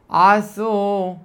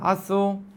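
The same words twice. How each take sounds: First: The first vowel is slightly lengthened and open. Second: The first vowel is very short. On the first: It says that someone did something. "אני פשוט פותח פה גדול" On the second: It is a command to do something. "העין בחטף פתח. ואז ממילא זה מאוד קצר"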